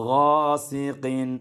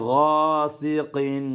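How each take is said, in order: The two takes are said the same way.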